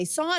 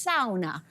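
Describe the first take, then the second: First: "sauna" as SAW-nuh; English pronunciation. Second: "sauna" as SOW-na, rhyming with down; Finnish pronunciation. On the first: Co-host showing the English word, "sauna" as SAW-nuh. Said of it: "in English, we say sauna". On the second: Co-host showing Finnish viewers' word, Finnish "sauna". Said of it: "if you are Finnish". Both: Shown as a demonstration.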